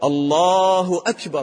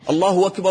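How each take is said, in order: First: The glottal stop before akbar is clearly pronounced. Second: The glottal stop before akbar is dropped. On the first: The speaker calls it right. "لازم تنطق الهمزة" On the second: The speaker calls it wrong. "ما تقول ... هذا خطأ"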